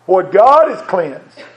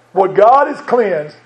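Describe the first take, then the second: First: What God has cleansed drawn out slow, GOD stressed; slow emphasis. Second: Slow again, GOD stressed, falling at the end; slow repeat. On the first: Preacher to congregation, stressing GOD slowly. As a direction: lean on GOD, slow and weighty. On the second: Preacher repeating the verse, slow stress on GOD. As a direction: repeat it slowly, hammering GOD. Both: Shown as a demonstration. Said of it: "Hear that word".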